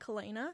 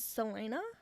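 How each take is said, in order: First: The name begins with a hard K sound. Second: The name begins with a soft S sound. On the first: The speaker calls it wrong. "the C is a hard C, so I'll just pronounce it with a K" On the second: The speaker calls it right. "like a Selena"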